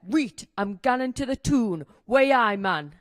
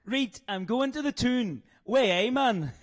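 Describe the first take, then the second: First: Broad Newcastle accent, punchy finish; full-on Geordie accent. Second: Slow, higher Geordie attempt in Northern Irish accent; badly imitated Newcastle accent; failed Geordie accent. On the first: Shown as a demonstration. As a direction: model full-strength Geordie, loud on the catchphrase. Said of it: "Full on Geordie". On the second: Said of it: "you just sound like you still".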